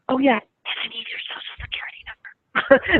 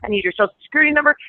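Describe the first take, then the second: First: The line is whispered. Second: The line is said in a steady, normal voice.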